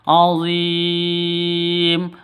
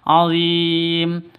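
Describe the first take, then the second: First: The long vowel is held for six beats. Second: The long vowel is held for four beats. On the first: "azim boleh enam ketukan" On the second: "azim boleh empat ketukan"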